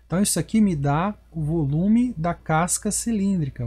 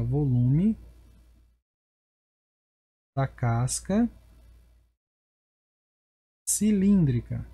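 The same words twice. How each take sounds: First: Said in the usual way. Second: "volume... da casca... cilíndrica" said in separate chunks with long pauses between; slow dictation. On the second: Shown as a demonstration. Teacher dictating the formula name to students in slow, broken chunks. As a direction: spell it out piece by piece while writing it on the board.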